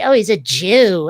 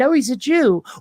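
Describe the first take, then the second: First: It is said in a scornful, contemptuous tone. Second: It is said in a plain, neutral tone. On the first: It is meant as an insult. "the slur for the same people" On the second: It simply names a group of people. "the name for people"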